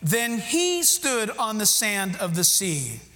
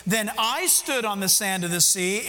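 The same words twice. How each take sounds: First: Slow reading with "he" stressed, falling at the end. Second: "I" lifted and stressed, rising toward the end. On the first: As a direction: hit "he" hard and read the line slowly. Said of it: "What is the other reading?". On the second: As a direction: lean on "I" as the one who stood. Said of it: "let's read it both ways". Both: Shown as a demonstration.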